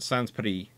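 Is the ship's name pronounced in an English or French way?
French. The name is pronounced the French way. "the French pronounce it"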